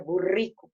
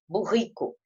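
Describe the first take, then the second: First: The R sound is made with the tongue. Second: The R sound is made in the throat. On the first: This is how other regions of Brazil say it. "falam o R mais assim na língua" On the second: This is how some regions of Brazil say it. "falam o, o R na garganta"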